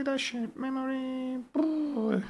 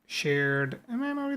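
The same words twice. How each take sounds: First: "shared memory" sung out much higher; high playful voice. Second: Said in the usual way. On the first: Shown as a demonstration. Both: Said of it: "repeats the words playfully".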